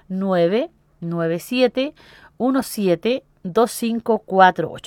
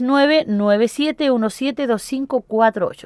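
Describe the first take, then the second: First: The numbers are said more slowly. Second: The numbers are said at normal, faster speed.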